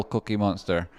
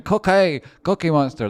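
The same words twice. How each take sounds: First: Said in the usual way. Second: Loud high Cookie Monster call; Cookie Monster shout. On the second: Retold or imitated. Streamer echoes a donor's Cookie Monster shout, loud and high. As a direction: yell the name like the donor said it. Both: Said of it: "That's how he said it as well".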